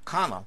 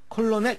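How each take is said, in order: First: The middle L sound is left silent. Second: The middle L sound is clearly pronounced. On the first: The speaker calls it right. "L이 묵음입니다" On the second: The speaker calls it wrong. "콜로넬 이렇게 발음하면 안 됩니다"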